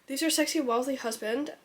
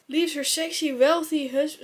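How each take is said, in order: First: It is said in the speaker's normal accent. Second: It is said in a put-on German accent. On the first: "sorry, I'll talk normal" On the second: "It's a fucking German accent"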